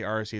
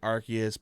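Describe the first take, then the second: First: It is said with the Japanese-style pronunciation. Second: It is said with the standard intended pronunciation. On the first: This is the speaker's habitual pronunciation. "but I say Arceus" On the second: This is the officially intended pronunciation. "I know it's supposed to be Arceus"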